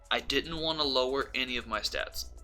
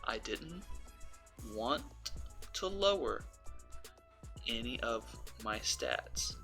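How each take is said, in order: First: It is said at a faster pace. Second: It is said at a slower pace.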